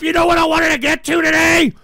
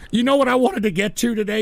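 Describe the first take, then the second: First: High, loud exasperated demand; angry shouting. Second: Said in the usual way. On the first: Real, not acted. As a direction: yell the question at the audience. Repeats the question, shouting.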